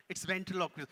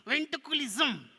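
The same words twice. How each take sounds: First: Said in the usual way. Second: High, loud, slow puppet voice; struggling puppet. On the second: Pretend. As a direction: labour through the word as the puppet. Puppet tries the word.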